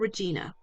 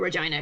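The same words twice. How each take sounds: First: The name is said in a plain way. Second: The name is said in a posh way.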